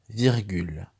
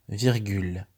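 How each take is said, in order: Both takes have the same delivery.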